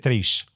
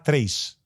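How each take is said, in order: First: The final S is Carioca, a sh-like sound. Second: The final S is neutral, a plain s sound.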